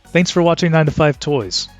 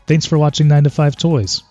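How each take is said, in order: First: The voice is heard with no enhancement. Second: The voice is processed to sound warm. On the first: "with the voice enhancer turned off" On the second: "with the warm setting"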